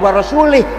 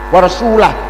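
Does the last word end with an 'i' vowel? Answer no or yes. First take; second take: yes; no. First: The last word ends with an 'i' vowel. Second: The last word does not end in 'i'. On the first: God disowns the Messenger too. The speaker calls it wrong. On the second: The Messenger also disowns the polytheists. The speaker calls it right.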